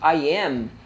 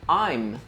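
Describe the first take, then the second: First: Two full words are said separately. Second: The words are squeezed into one short syllable.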